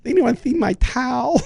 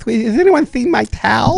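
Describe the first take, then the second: First: Put-on high lisping boy voice again; lisping kid voice. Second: Put-on high, slow lisping boy; lisping kid voice. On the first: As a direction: repeat the lisp bit. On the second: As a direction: do the kid with a lisp. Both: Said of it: "a little lisp that he goes".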